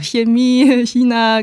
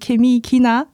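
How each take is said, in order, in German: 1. Jedes Wort beginnt mit einem weichen ch-Laut. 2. Jedes Wort beginnt mit einem harten k-Laut. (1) "sag nicht Ke, sag doch Chemie China, ganz standardhochdeutsch" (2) "ich möchte immer sagen Chemie China, aber das wird hier natürlich sehr komisch wahrgenommen"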